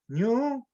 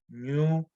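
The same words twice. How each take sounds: First: The word is said with a higher tone. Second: The word is said with a low tone. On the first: It means soot. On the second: It means the word for dough.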